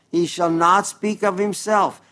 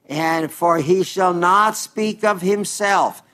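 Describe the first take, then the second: First: Said in the usual way. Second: Slow, leaning hard on "not", falling away after; scripture read slowly with "not" weighted; stress on NOT. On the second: Acted. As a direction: linger and press "not" in "he shall not speak". Reading scripture, stressing a word.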